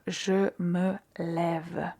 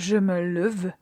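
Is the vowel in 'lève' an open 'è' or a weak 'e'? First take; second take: open è; weak e. First: The vowel in 'lève' is an open è. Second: The vowel in 'lève' is a weak, reduced e. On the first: The speaker calls it right. "on va dire je me lève. Et là, on a l'accent, l'accent grave pour euh, bien prononcer" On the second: The speaker calls it wrong. "au lieu de dire"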